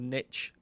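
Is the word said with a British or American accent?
American. The word is said in an American accent.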